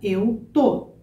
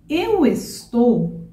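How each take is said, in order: First: The verb is shortened to one syllable. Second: The verb is said in full with two syllables.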